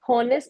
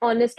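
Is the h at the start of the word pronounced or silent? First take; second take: pronounced; silent. First: The word begins with an h sound. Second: The word begins with a vowel, no h. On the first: The speaker calls it wrong. "हॉनेस्ट नहीं" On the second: The speaker calls it right. "उसमें एच जो है वो silent है"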